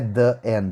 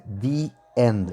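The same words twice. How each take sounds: First: 'The' is said with a short 'thuh' vowel. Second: 'The' is said with a long 'thee' vowel. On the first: The speaker calls it wrong. "não é the end" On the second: The speaker calls it right. "é the end"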